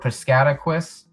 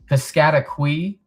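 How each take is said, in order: First: The last syllable ends with an s sound. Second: The last syllable ends without an s sound. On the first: "not quis" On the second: "a qui sound to it and not quis"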